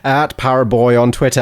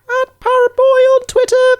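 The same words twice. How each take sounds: First: It is said in a normal voice. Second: It is said in a high-pitched voice.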